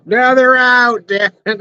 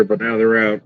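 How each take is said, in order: First: Exasperated yell. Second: Said in the usual way. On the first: Real, not acted. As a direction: yell it at the bugs. Annoyed at bugs arriving.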